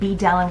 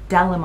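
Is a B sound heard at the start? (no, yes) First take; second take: yes; no. First: A B sound is pronounced at the start. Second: No B sound is pronounced at the start. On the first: The speaker calls it wrong. "I keep saying B Dalim because it's B D" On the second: The speaker calls it right. "but it's Dalim, I believe. The B is silent"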